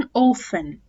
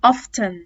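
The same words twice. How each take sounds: First: "often" said "offen", American style; American "often", t dropped. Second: "often" with a spoken t, British style. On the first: Teacher showing the American "often". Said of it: "أما الأمريكان". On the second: Teacher showing the British "often". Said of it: "زي البريتش". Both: Shown as a demonstration.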